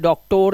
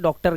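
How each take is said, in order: First: The ending has a full 'or' vowel. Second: The ending has a weak 'uh' vowel. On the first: The speaker calls it wrong. "डॉक्टर नहीं करते" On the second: The speaker calls it right. "आ की आवाज आती है"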